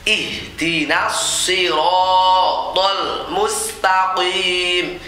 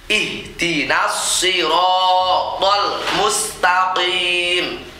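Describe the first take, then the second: No difference in how they are said.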